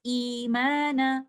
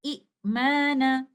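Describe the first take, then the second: First: Imana recited slowly with a long ya mad, ee held two counts; recited form. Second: Imana spoken very slowly, a glottal stop before a short i; original form with two hamzas. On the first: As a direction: chant Imana, stretching the ee. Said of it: "we recite it like this". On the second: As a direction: say Imana the old way, with a second hamza. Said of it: "originally, the word is like this". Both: Shown as a demonstration.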